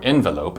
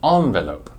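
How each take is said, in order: First: It is said with an English pronunciation. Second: It is said with a French pronunciation.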